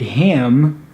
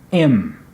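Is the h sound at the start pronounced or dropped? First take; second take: pronounced; dropped. First: The initial h sound is pronounced. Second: The initial h sound is dropped. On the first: "the word him" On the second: "you might hear im"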